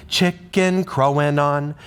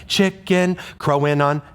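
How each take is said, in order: First: "Chicken crowing on" chanted with "crowing on" starting right on the beat; right rhythm demo. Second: "chicken crowing on" chanted with "crowing on" held back to the end of the beat; wrong rhythm demo. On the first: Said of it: "we put it at the beginning". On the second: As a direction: chant "chicken", wait a moment, then squeeze in "crowing on". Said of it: "If it was at the end". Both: Shown as a demonstration.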